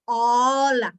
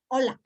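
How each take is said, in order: First: Hola with a long, loud, wide-open O; American open O. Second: Said in the usual way. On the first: Shown as a demonstration. Teacher demonstrating for students, drawn-out open O in Hola. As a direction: stretch out the O in Hola, big and open. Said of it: "It's going to be wide open". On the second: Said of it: "An American person is not going to say".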